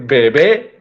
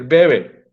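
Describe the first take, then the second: First: The stress is on the last syllable. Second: The stress is on the first syllable. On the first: It means a baby. "no es lo mismo tener un bebé" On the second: It means someone drinks. "a tener alguien que bebe"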